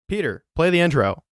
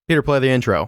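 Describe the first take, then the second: First: It is said more slowly, with gravitas. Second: It is said fast and dismissively.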